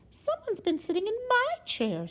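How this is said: It is said in a middle-sized voice.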